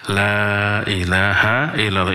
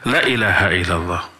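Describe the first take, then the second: First: The vowel in 'la' is held long. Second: The vowel in 'la' is cut short. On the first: There is no god but God. The speaker calls it right. "La-nya tidak dibaca pendek, harusnya" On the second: There is surely a god besides God. The speaker calls it wrong. "Artinya pasti ada ilah selain Allah"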